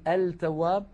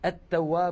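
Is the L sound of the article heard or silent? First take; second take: heard; silent. First: The article's l is clearly pronounced before t. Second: The article's l merges into the following t. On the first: The speaker calls it wrong. "ولا نقول" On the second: The speaker calls it right. "كانت العرب تدغم لام التعريف فيها"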